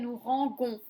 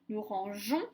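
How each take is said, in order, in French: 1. La consonne avant la terminaison est un g dur. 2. La consonne avant la terminaison est un j doux. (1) "sinon ça ferait" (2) "je suis obligée de rajouter le E"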